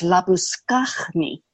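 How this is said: The name is said the Afrikaans way. "that version was"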